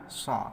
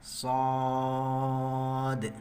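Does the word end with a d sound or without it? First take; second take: without d; with d. First: The word ends on the vowel, no final d. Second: The word ends with a final d sound. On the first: The speaker calls it wrong. "tidak dibaca dengan sha" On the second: The speaker calls it right. "tapi dibaca dengan shad"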